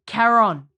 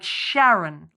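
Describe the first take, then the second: First: The name starts with a K sound. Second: The name starts with an SH sound. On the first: The speaker calls it right. "it's C H, but it's K. That's how you pronounce it" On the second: The speaker calls it wrong. "Winston says Sharon, like Sharon"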